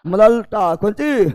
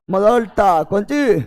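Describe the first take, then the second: No difference in how they are said.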